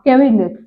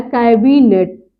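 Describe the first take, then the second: First: कैबिनेट said as "keveenet" with a short e; common wrong way. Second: कैबिनेट said slowly and clearly as "kaibinet"; correct pronunciation. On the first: Teacher showing students their wrong कैबिनेट. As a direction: mimic the mistaken कैबिनेट. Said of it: "बोल देते हैं ना आप कैबिनेट". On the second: Teacher modelling the correct कैबिनेट slowly for students. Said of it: "लेकिन होता क्या है?". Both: Shown as a demonstration.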